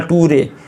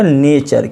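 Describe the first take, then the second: First: The middle consonant is a plain 't' sound. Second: The middle consonant is a 'ch' sound. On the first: The speaker calls it wrong. "इसको नहीं आप पढ़ लेना नटूरे" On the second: The speaker calls it right. "ये हो गया नेचर"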